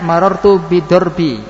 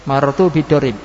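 First: The last word ends with an i vowel. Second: The last word ends with a b consonant.

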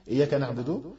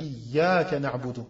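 First: The y sound is single and short. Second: The y sound is doubled and held longer. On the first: The speaker calls it wrong. "bidouni shadda fil ya" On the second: The speaker calls it right. "en mettant le « med », en mettant le prolongement"

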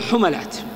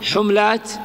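First: The second consonant is followed by an 'a' vowel. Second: The second consonant has no vowel after it. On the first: "أو خففه بالفتح" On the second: "تسكن العين"

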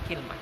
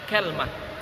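First: It has 'i' after k and no vowel after l. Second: It has 'a' after k and no vowel after l. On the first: "dengan mengkasrah kafnya dan mensukun lamnya" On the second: "dengan fathah kafnya dan mensukun lamnya"

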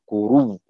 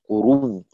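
Both takes have the same delivery.

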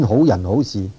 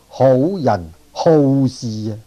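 First: 好 is said with a low dipping tone. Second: 好 is said with a falling tone. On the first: Good people and good deeds. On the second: People who like to go looking for deeds to do.

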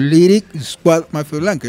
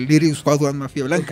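First: The name is said slowly and deliberately. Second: The name is said quickly, run together. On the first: "yo lo digo muy despacio" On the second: "Es rapidito"

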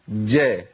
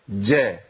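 No difference in how they are said.

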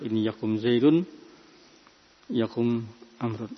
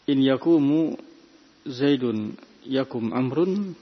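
First: Neither verb ends in a 'u' vowel. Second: Only the first verb ends in a 'u' vowel. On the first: The speaker calls it right. "Yang benar adalah" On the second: The speaker calls it wrong. "khata, juga keliru"

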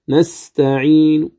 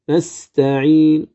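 First: Only a faint trace of the final vowel sounds. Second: Only a faint trace of the final vowel sounds.

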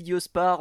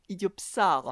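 First: The middle consonants come as s then p. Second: The middle consonants come as p then s. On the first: The speaker calls it wrong. "J'ai dit idiospars depuis le début, mais non" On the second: The speaker calls it right. "c'est idiopsars"

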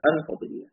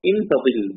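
First: The first word starts with an 'a' vowel. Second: The first word starts with an 'i' vowel. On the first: "مثل أصليهما" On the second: "بكسر الهمزة"

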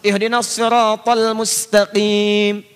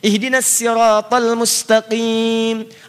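First: Sirat begins with a heavy, emphatic s sound. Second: Sirat begins with a light, plain s sound. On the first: "Makanya muncul menggunakan sod, riwayat hafiz" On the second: "Ada yang pakai sin"

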